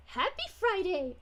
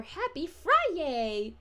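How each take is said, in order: First: Said in the usual way. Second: "Friday" stretched slowly into a cheer; playful drawn-out Friday. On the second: Retold or imitated. Streamer reads a viewer's greeting, "Friday" playfully drawn out. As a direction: draw out "Friday" as if it ended in "yay". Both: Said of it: "or happy Friday".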